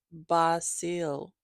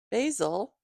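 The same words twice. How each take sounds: First: Basil said bah-SEEL; Basil with an open 'ah' and a long 'ee'; corrected pronunciation. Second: Basil said BAY-zul; Basil with a long 'ay' and a buzzed z; mistaken pronunciation. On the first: Shown as a demonstration. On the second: Real, not acted. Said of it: "Oh, I'm sorry".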